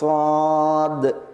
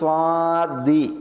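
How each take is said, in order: First: It ends on a bounced consonant with no vowel. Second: It ends with a short i vowel. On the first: "അപ്പോൾ സ്വാദ് എന്ന് പറയണം. അതാണ് അതിൻ്റെ പ്രബലമായ ഖിറാഅത്ത്" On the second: "അല്ലെങ്കിൽ സ്വാദി"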